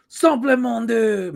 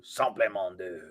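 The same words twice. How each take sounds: First: High, slow hammed-up catchphrase; slow, high mock announcer; gimmick catchphrase. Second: Soft, lightly voiced catchphrase; half-hearted catchphrase; quiet gimmick catchphrase. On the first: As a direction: belt out the old show gimmick. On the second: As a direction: throw away the gimmick under the breath. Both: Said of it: "this was your gimmick".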